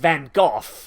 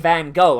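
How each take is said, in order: First: The name is said with a British pronunciation. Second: The name is said with an American pronunciation. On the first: "in England it's Van Gogh" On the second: "Americans say Van Gogh"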